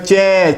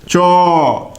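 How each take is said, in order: First: The vowel after ch sounds like e. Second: The vowel after ch sounds like o. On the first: This is how it is said in the west, around Delhi. "जैसे दिल्ली वगैरह में चे" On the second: This is how it is said further east. "पूरब की ओर बढ़ते जाएंगे तो इसका उच्चारण जो है वर्तुलाकार होता चला जाता"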